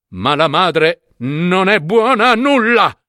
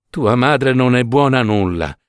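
First: Exclaimed condemnation. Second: Trembling lips. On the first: Judge condemning the mother before his guests, scornful. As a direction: condemn her, climbing in pitch to the end. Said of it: "esclamò". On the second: Washerwoman repeating the judge's insult to her son, hurt. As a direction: repeat the insult as if it wounds you. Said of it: "le labbra tremanti". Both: A narrator's reading.

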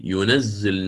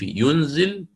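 First: ينزل as yunazzil with a doubled z; ينزل stressing a doubled z; with shadda. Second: ينزل as yunzil, z single with a silent n; ينزل said lightly with a single z; light reading. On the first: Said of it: "بالتشديد". (ينزل بتشديد الزاي) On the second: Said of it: "قرأها بالتخفيف". (ينزل بالتخفيف وإسكان النون) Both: Shown as a demonstration.

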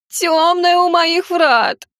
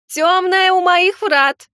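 First: Slow, very high, whiny whimper; whimpering gargoyle. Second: Slow, very high, loud wail; wailing gargoyle. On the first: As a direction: whine it out pitifully. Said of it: "захныкала статуя". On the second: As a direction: howl the warning in despair. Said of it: "продолжала голосить статуя". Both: Acted.

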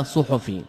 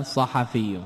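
First: "صحفي" said suḥfi, u-vowel on ص, no vowel on ح; common mistaken form. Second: "صحفي" said saḥafi, open a-vowels on ص and ح; correct nisba form. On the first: Teacher to students, showing the common error "صحفي" as suh-fi. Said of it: "المشهور عند أهل الحديث كثيرًا من اللحن". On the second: Teacher to students, giving the correct form "صحفي" as sa-ha-fi. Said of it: "النسبة إليه تكون ماذا؟". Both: Shown as a demonstration.

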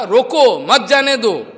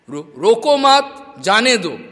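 First: Loud "रोको", then "मत जाने दो" run together; intended grouping. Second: Loud "रो-, रोको मत", then "जाने दो" apart; stammered wrong grouping. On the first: Shown as a demonstration. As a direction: break after "रोको" and join "मत" to "जाने दो". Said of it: "उसको बोलना था". (ज़ोर से "रोको", फिर एक साथ "मत जाने दो") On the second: Retold or imitated. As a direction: stammer on "रो", join "मत" to "रोको", break before "जाने दो". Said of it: "उसका स्टैमरिंग है". (हकलाकर ज़ोर से "रोको मत", फिर अलग से "जाने दो")

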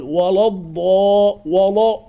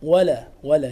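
First: "ولا" with dark, rounded l and vowel; thickened lam. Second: "ولا" with thin l and fronted a; light lam. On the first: Teacher shows what to avoid, heavy lam in "ولا". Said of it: "لا تقرأ، لا تقل". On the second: Teacher gives correct form, thin lam in "ولا". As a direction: keep "ولا" light and clear. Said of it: "لا مرققة". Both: Shown as a demonstration.

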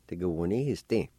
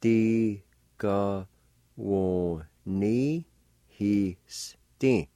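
First: Said in the usual way. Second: "Tigawonihiste" very slowly, broken into syllables; syllable-by-syllable pronunciation. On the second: Shown as a demonstration. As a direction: sound out "Tigawonihiste" with long gaps between syllables. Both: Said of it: "pronounced like this".

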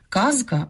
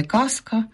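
First: Казка keeps a voiced з; казка with a buzzing з; voiced з inside. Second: Казка said as каска; казка pronounced каска, the wrong form; devoiced з. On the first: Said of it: "а не казка". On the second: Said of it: "а не". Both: Shown as a demonstration.

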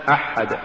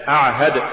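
First: "أحد" with unvoiced throat ha replacing ayn; ayn becomes ha. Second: Said in the usual way. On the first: Shown as a demonstration. Teacher showing an error, "أحد" said with ha for ayn. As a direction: devoice the ayn, giving "أحد". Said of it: "تقرأ لحنا". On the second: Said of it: "استبدال العين بالحاء".

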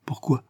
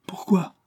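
First: A first reproachful why; reproachful question. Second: Reproachful Pourquoi, pitched much higher; reproachful higher repeat. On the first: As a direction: reproach him, still held back. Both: A narrator's reading. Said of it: "d'un ton de reproche".

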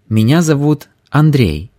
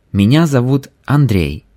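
No difference in how they are said.

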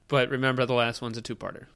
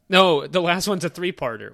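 First: Said in the usual way. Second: "No" hit louder, falling, correcting "three-parter"; correcting stress. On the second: Real, not acted.

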